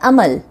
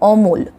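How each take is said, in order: First: Open first vowel, and the word ends on a consonant. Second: O-like first vowel, and the word ends on a consonant. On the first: "হিন্দিতে" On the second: "বাংলায়"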